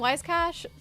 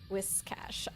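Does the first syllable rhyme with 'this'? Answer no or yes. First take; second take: no; yes. First: The first syllable does not rhyme with 'this'. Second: The first syllable rhymes with 'this'. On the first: The speaker calls it wrong. "Dang it! I just did it now too" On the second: The speaker calls it right. "the first syllable rhymes with this"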